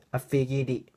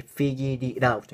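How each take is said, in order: First: I figured it with the d and i joined; linking demo. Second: Figured it out with the T as a quick flap r; slow demo, "it out" linked with a flapped T. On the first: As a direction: run "figured it" together as one word. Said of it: "このDとIはくっつきます". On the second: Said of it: "これはラリルルのT". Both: Shown as a demonstration.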